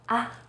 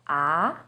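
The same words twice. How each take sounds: First: The syllable is light and short. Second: The pitch starts lower and rises. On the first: "you say it in a more light and short way" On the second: "Second tone, starts with a little lower pitch and goes up"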